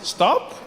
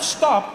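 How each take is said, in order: First: It is said as a soft suggestion. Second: It is said as a firm command.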